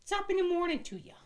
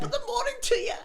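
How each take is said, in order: First: Very high Irish leprechaun voice. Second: Very high Irish leprechaun voice, laughing. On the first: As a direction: squeak it out like a tiny leprechaun. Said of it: "Like that, yeah". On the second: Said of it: "Go for a leprechaun". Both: Shown as a demonstration.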